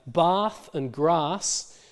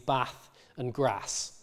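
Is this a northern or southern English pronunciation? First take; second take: southern; northern. First: Southern English vowel, a long 'ah' sound. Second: Northern English vowel, a short 'a' sound. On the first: "in my variety would be an R" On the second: "in the north, people would pronounce these bath and grass with an A vowel"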